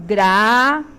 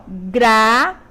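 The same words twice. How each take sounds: First: "gratuito" split slowly as gra-tu-í-to, stressed í; "gratuito" said the wrong way, stress on the í; wrong four-syllable gratuito. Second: "Gratuito" as gra-tui-to, the ui as one syllable; "Gratuito" with the tui diphthong; correct three-syllable gratuito. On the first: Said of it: "Quatro sílabas". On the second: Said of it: "três, três sílabas". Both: Shown as a demonstration.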